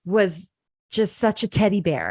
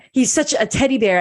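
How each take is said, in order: First: Said in the usual way. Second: Higher and louder, quick, voice welling up; getting emotional. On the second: Real, not acted. Guest remembering her friend's dad, voice rising with emotion. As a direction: emotion spilling through the words. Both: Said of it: "I'm getting emotional".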